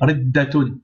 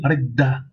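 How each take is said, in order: First: The word ends with a full '-tun' syllable. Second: The word ends on a short final vowel. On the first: The word continues into following words. "On aurait continué" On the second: The word is read on its own. "On dit ridda"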